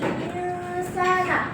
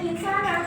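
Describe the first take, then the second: First: The n is hidden with a nasal hum. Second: The n is pronounced clearly and fully. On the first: The speaker calls it right. "Nun sukunnya itu yang disamarkan. Jadi insana" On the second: The speaker calls it wrong. "bukan insana. Kalau insana itu kan dia jelas ya"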